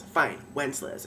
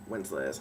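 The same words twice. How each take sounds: First: Said in the usual way. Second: Low, quiet, sneering Wenceslas; mocking his name. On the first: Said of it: "if that's what you prefer to be called". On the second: She mocks the lord by his first name, low and sneering. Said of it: "Fine, Wenceslas, if that's what you prefer".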